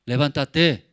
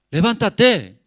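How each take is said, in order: First: Firm fatherly call, a bit louder; father's wake-up call. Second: Louder, higher fatherly command; insistent wake-up shout. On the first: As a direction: tell a sleeping son to get up. Father waking his son. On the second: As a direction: raise your voice to rouse him. Father repeats wake-up call louder. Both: Acted.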